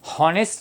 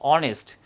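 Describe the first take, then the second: First: The word begins with an h sound. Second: The word begins with a vowel sound. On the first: The speaker calls it wrong. "H हॉनेस्ट नाही आहे" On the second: The speaker calls it right. "H silent आहे"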